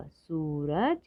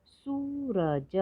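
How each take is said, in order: First: Said in the usual way. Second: सूरज split as high long सू, र, ज; slow separate beats in सूरज; letter by letter. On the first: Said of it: "तो शब्द पढ़ते हैं". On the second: Shown as a demonstration. Teacher sounding out सूरज for learners, letter by letter. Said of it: "थोड़ा अधिक समय लगता है".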